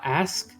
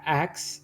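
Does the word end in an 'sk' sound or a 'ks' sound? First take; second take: sk; ks. First: The word ends with an s then k sound. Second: The word ends with a k then s sound. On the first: "I had a problem saying uh" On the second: "I would pronounce it a- ax"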